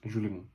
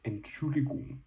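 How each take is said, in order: First: The word is said fast. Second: The word is said slowly.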